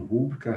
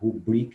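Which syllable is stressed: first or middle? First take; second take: first; middle. First: The stress is on the first syllable. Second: The stress is on the middle syllable. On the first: The speaker calls it wrong. "e não" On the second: The speaker calls it right. "Nas paroxítonas"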